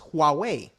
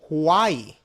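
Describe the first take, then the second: First: The name sounds like wah-way. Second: The name sounds like the word Hawaii. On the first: The speaker calls it right. "correctly pronounce it is Huawei" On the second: The speaker calls it wrong. "I pronounced it wrong. I said Hawaii"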